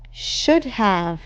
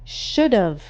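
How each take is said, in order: First: Both words are said fully and separately. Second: The words are merged into one short word.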